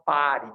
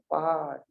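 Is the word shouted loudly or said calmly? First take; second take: shouted; calm. First: The word is shouted very loudly. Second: The word is said quietly and calmly. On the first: There is an emergency. "você pode gritar pare bem alto" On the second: Settle down and ease off. "Ou pode ser mais calmo"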